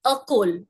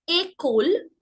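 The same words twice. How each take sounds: First: École wrongly said as "uh-kol"; missing-accent sound. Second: École said as "ay-kol"; higher, rising model word, école as /ekol/; accented é sound. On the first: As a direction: begin école on a schwa. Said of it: "how the sounds would be if I did not have the accents". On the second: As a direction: open école on a clear "ay". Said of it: "which gives me the sound A". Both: Shown as a demonstration.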